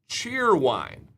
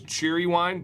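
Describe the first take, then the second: First: The name is said with two syllables. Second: The name is said with three syllables. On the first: The speaker calls it right. "but it is cheer wine" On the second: The speaker calls it wrong. "I always thought it was cheery wine"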